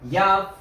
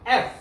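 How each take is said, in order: First: It begins with a y sound. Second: It begins directly with a vowel sound. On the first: The speaker calls it wrong. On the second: The speaker calls it right.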